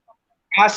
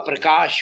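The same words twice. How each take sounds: First: The final consonant sounds like a plain 's'. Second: The final consonant sounds like 'sh'. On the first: The speaker calls it wrong. "आप प्रकाश नहीं हुआ" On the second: The speaker calls it right. "प्रकाश हुआ"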